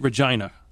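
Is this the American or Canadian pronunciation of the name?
Canadian. The name is pronounced the Canadian way. "but you say it Regina"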